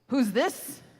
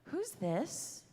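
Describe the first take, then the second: First: It is said in a rough, confrontational way. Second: It is said in a soft, gentle way.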